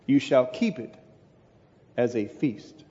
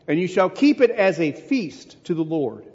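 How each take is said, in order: First: "you shall keep it ... as a feast" lower, softer, long pause after "keep it"; solemn emphatic close. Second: Said in the usual way. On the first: Shown as a demonstration. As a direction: let "as a feast" sink low and quiet. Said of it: "same phrase repeated, drawn out". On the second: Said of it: "repeated phrase slowed and lowered".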